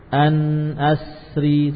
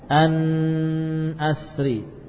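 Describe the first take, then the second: First: The n is nasalized only briefly. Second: The n is nasalized for too long. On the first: The speaker calls it right. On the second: The speaker calls it wrong.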